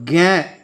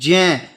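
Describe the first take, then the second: First: The syllable begins with a g sound. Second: The syllable begins with a j sound. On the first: The speaker calls it wrong. "वैसे गे नहीं होता" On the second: The speaker calls it right. "ये होता है जय plus य ज्य"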